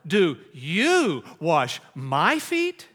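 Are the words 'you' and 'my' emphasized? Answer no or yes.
yes. The words you and my are emphasized.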